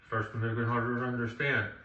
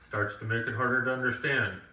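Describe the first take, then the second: Both takes have the same delivery.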